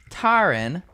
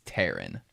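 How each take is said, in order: First: The name is said with a Southern drawl. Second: The name is said with a plain accent. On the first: The speaker calls it wrong. "when I was in the South" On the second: The speaker calls it right. "no, it's Taryn"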